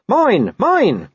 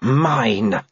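First: High, loud barking "Mine, mine"; barked. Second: Wolf growl. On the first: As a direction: snap out "Mine, mine" like a small dog. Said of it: "He barked". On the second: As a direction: growl "Mine" calmly like a wolf. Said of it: "growled the wolf". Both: A narrator's reading.

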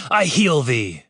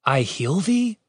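First: Said in the usual way. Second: THEE rising high in a question; puzzled echo. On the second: A narrator's reading. Guard to another guard, puzzled echo lifting THEE. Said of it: "one guard mouthed to another".

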